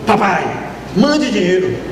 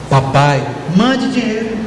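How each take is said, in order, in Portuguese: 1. O pedido soa seco e exigente. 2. O pedido soa gentil e doce. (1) "como esse seu filho é um ingrato" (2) "foi assim: ... a doçura"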